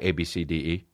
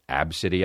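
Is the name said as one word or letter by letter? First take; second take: letter by letter; one word. First: The name is spelled out letter by letter. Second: The name is said as one word. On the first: The speaker refuses to accept the intended pronunciation. "I'm not pronouncing it that way" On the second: This is how the family says the name. "as it is pronounced"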